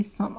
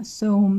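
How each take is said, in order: First: "سام" with a short uh vowel, like "sum"; "سام" with no long O, silent final E; usual exception pronunciation. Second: "سوم" with a long O, like "sohm"; wrong long-O pronunciation. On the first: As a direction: say "سام" to rhyme with "hum". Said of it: "این ای ماجیک نیستش". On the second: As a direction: say "سوم" to rhyme with "home". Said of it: "باعث بشه این صدای او بده". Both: Shown as a demonstration.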